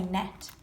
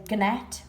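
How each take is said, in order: First: Said in the usual way. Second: Gnat said as guh-nat with a hard g; wrong gnat, guh-nat; g sounded. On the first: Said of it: "we say gnat". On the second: Shown as a demonstration. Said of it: "we don't say gnat".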